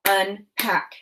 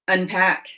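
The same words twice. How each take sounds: First: "Unpack" split as un, pause, pack; chopped syllables. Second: Said in the usual way. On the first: Shown as a demonstration. Teacher chops "Unpack" for pupils to blend, syllable by syllable. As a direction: put a gap inside "Unpack". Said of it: "I'm gonna chop the syllables in each word". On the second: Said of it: "you're gonna say what our word is".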